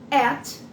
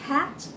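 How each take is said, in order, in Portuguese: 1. A palavra começa diretamente com a vogal. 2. A palavra começa com um h aspirado. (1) "como é que a gente leria em português?" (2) "viu o H no início da palavra, ele tem som de R forte"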